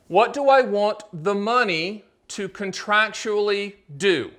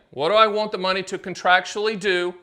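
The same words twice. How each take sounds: First: Slow and deliberate, every word spaced for note-taking; slow dictation. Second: Said in the usual way. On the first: Shown as a demonstration. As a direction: read it out slowly so they can write it down. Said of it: "Wrote it down? I'll do it again". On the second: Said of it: "I'll do it again".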